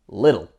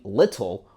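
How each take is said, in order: First: The middle consonant is a soft, D-like sound. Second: The middle consonant is a crisp, clear T. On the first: "we say little" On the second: "instead of saying little"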